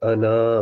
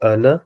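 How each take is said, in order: First: The final vowel is drawn out long. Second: The final vowel is kept short. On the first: "تو وہ الف پڑھا جائے گا وہ انا پڑھا جائے گا" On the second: "اس کا الف نہیں پڑھا جائے گا"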